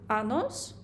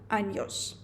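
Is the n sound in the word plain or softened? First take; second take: plain; softened. First: The n sound is plain, without softening. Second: The n sound is softened, like ny. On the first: The speaker calls it wrong. "Бо якщо ви скажете «años», з вас посміються" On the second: The speaker calls it right. "Не забувайте робити пом'якшення у звуку «нь»"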